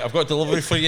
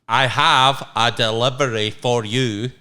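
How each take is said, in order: First: It is said fast and rushed. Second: It is said slowly and deliberately.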